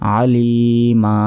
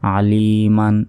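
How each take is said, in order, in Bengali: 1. শব্দটি একটি দীর্ঘায়িত স্বর দিয়ে শেষ হয়। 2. শব্দটি n ধ্বনি দিয়ে শেষ হয়। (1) "কিন্তু যদি থামি" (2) "যদি না থামি সেক্ষেত্রে আলিমান কাসীরন এভাবে পড়তে হবে"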